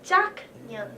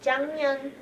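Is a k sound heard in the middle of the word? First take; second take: yes; no. First: A k sound is heard mid-word. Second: No k sound is heard mid-word. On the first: The speaker calls it wrong. "not 작년" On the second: The speaker calls it right. "So 장년"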